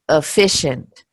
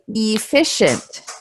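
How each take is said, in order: First: The word is said casually, with a reduced first vowel. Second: The word is said carefully, with a full first vowel. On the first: "if we're not being careful" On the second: "if we're being very careful"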